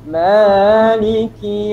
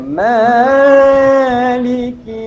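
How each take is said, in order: First: The first vowel is held for only two beats. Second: The first vowel is drawn out long and melodic. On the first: The speaker calls it right. "bacaannya dua harakat" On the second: The speaker calls it wrong. "punya berlagu dia kan"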